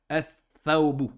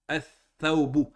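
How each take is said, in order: Both takes have the same delivery.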